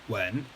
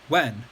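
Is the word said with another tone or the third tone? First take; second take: third tone; another tone. First: The word is said with the third tone. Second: The word is said with a non-third tone. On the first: It means to kiss. "When third tone means to kiss somebody" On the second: It means to ask. "when means to ask somebody question"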